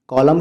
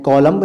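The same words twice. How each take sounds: First: "कॉलम" ending on M, no B; correct pronunciation. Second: "कॉलम्ब" with the final B sounded; wrong pronunciation. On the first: Teacher showing how it is said, correctly pronounced. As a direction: say "कॉलम" with a silent B. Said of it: "कहते हैं". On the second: Teacher showing how not to say it, mispronounced. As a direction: add a clear B ending "कॉलम्ब". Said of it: "नहीं कहते". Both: Shown as a demonstration.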